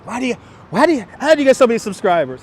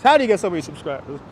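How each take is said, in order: First: Higher, quicker mock voice of a nosy stranger; lightly voiced curious stranger; mock nosy asker. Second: Said in the usual way. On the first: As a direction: parrot the pestering question, a bit higher. Mimicking people asking him.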